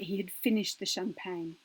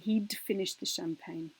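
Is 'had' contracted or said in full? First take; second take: full; contracted. First: The word had is said in full, unhurried. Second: The word had is contracted, spoken quickly.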